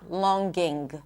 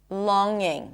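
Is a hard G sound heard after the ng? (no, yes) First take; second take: yes; no. First: A hard G is released after the ng. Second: No hard G is released after the ng. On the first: The speaker calls it wrong. "not longing" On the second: The speaker calls it right. "Longing, not longing"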